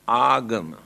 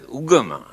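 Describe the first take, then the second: First: The first vowel sounds like 'ah'. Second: The first vowel sounds like 'uh'. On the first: This is the original form of the word. "the original word is agama" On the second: This is how people say it nowadays. "Here now they pronounce as ugama"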